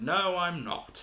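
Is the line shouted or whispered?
shouted. It is said in a loud shout. "he shouts like"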